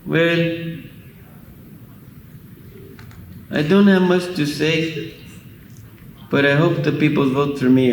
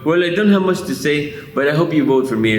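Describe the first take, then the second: First: The line is spoken very slowly. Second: The line is spoken at a quicker pace.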